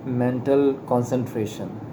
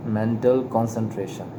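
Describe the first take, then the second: No difference in how they are said.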